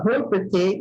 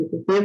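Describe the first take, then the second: First: "Repetir" with the first E rounded; French slip on "Repetir", opening E turned into a rounded vowel. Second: Said in the usual way. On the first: Shown as a demonstration. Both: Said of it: "em vez de repetir".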